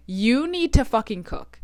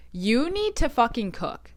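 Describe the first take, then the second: No difference in how they are said.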